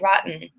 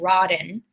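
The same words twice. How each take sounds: First: The T is a guttural catch in the throat. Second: The T is said as a soft D sound. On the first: The speaker calls it right. "I say rotten. ... it's a guttural kind of sound" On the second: The speaker calls it wrong. "I don't say rotten"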